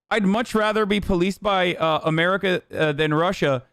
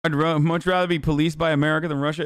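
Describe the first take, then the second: First: Sarcastic parroting of the chat; echoing a viewer's comment to mock it; mocking repeat. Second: Said in the usual way. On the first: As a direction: repeat it back with open scorn. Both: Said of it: "says the Georgian man".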